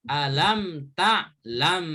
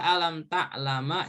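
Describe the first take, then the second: First: The last word ends on m, with no vowel. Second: The last word ends with an a vowel. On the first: The speaker calls it right. "Jadi harus harokat sukun" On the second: The speaker calls it wrong. "Dibaca alam ta'lama juga nggak boleh"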